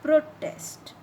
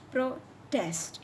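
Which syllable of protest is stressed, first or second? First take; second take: first; second. First: The stress is on the first syllable. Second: The stress is on the second syllable. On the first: The word is a noun. "when you st stress on the first part, it is noun" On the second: The word is a verb. "It is verb"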